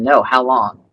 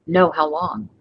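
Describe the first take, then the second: First: Low, louder sarcastic retort. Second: Dry sarcastic comeback, flat. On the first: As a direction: sneer the question back at the caller. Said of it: "That's just pure sarcasm". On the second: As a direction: toss it back with mock interest. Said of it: "One of them is pure sarcasm". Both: Shown as a demonstration.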